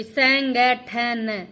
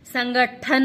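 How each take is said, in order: First: संगठन very slowly, syllable by syllable; louder, stretched "sain-gai-than" for संगठन; corrected form. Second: Louder संगठन in quick connected syllables; wrong form. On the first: Teacher demonstrating the correction, संगठन in slow separated syllables. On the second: Teacher rejecting the misspelling, louder quick संगठन. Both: Shown as a demonstration. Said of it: "संगठन नहीं होता".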